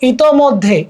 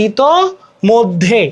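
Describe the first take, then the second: First: Said in the usual way. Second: ইতোমধ্যে slowly, broken as ito-moddhe; syllable by syllable. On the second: Shown as a demonstration. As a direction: draw out ইতোমধ্যে with pauses between its parts. (ইতোমধ্যে, ধীরে টেনে ভেঙে ভেঙে) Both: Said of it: "এগুলা কিছু try করতে পারবো".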